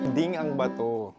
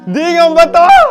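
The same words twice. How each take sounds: First: It is said in a calm, plain voice. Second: It is shouted in a panicked, frightened voice.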